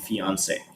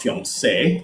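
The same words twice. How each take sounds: First: It is said with an American English pronunciation. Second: It is said with a French pronunciation. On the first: "in America, people will say" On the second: "that's how the French will say it"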